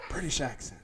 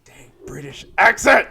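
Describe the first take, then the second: First: Soft, restrained repeat of British accent; hushed amusement, reined in; subdued. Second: Loud scream of amazement into the mic; sudden excited shout, much louder. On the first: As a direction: say it quietly, holding back a laugh. Subdued repeat after apologizing for screaming. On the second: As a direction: blurt it out, exploding on ACCENT. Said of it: "I should not scream into this microphone". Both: Real, not acted.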